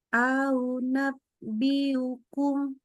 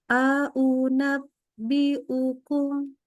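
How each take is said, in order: First: The glottal stops are softened and glided over. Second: Each glottal stop is crisp and clearly separated. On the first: The speaker calls it wrong. "yang nggak boleh kalau kita baca gini nih" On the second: The speaker calls it right. "Jadi di tek tek tek gitu ya"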